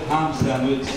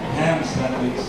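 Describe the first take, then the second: First: The 'a' in 'ham' has a Filipino vowel. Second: The 'a' in 'ham' has an American vowel. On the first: The listener could not understand it. The speaker calls it wrong. "hindi maintindihan yung ham sandwich" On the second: This is how native speakers say it. The speaker calls it right. "sabi ng mga classmates ko, [name], it's ham sandwich"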